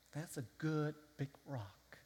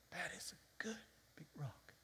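First: Said in the usual way. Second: Breathy whispered repeat, hushed and secret. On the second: Shown as a demonstration. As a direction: lean in and whisper it.

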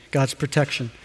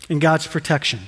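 First: "God's protection" said softer and lower in quiet wonder; amazed, hushed. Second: Said in the usual way. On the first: Shown as a demonstration. Preacher marvelling to the congregation at God's protection, hushed.

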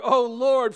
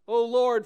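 First: Very loud cry to the Lord; vigorous cry. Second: Loud cry to the Lord; a rising call to heaven. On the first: Soldiers renew their prayer with more vigor, very loud. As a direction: throw everything into the call. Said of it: "their cry resumed with more vigor". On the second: Freezing soldiers cry out to God, loud. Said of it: "the soldiers began to cry out". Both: A narrator's reading.

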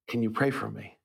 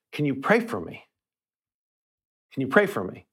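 First: Much softer, almost whispered plea; barely whispering. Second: A mild hint of a choked-up plea, softer. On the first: Retold or imitated. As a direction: lightly imitate a near-whisper, asking for prayer. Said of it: "before barely whispering". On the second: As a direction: imitate the mechanic asking through tears, quietly. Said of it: "he's choking with emotion".

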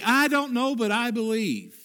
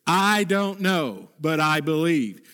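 First: Higher, ringing declaration; pitched-up preacher's refrain; emphatic refrain. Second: Spoken slowly, each word weighed; slow it down and let it land; measured, unhurried statement of faith; slow, deliberate refrain. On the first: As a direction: lift it like a creed. Repeated refrain, raised high. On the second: Refrain slowed right down. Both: Shown as a demonstration.

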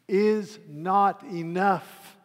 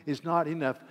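First: "is not enough" slow, loud, "not" punched; stress on not. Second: "is not enough" with "not" stressed, quick falling; quick firm "is not enough" with "not" leaned on. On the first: Preacher to congregation, slow emphatic "not enough". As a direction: hammer "not" in "is not enough", very slowly. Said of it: "let me say very, very quickly". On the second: Preacher to congregation, firm stress on "not". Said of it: "Orthodoxy, mere orthodoxy". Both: Shown as a demonstration.

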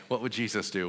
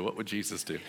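First: Said in the usual way. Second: Quieter, with a laugh breaking in; softer laughing repeat. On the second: Retold or imitated. Preacher repeats the question to himself, softly laughing. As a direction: say it again more softly, half laughing. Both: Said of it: "And I was like".

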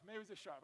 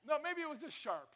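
First: Said in the usual way. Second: High, louder protesting no; playful self-correction. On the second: Real, not acted. Pastor defending his own sharp remark, playfully high. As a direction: bounce it up in mock defense. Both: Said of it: "that was not words of life".

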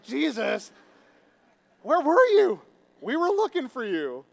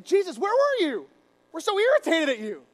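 First: High, loud playful holler; casual, raised-voice hail; calling out. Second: Loud, high irritated demand; hammed-up irritation, pitched way up. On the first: Acted. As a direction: call out to a friend who wandered off. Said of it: "And so the disciples were like". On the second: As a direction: snap at him in loud, acted annoyance. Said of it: "they get irritated".

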